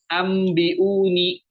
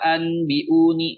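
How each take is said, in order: First: An m sound comes before the b. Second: A clear n sound comes before the b. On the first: The speaker calls it right. "nunnya kita ganti dengan mim" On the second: The speaker calls it wrong. "bukan anbiuni... Bukan seperti itu ya teman-teman"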